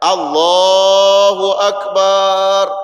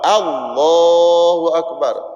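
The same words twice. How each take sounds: First: The vowels are stretched out too long. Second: The vowels are kept at normal length. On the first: The speaker calls it wrong. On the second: The speaker calls it right.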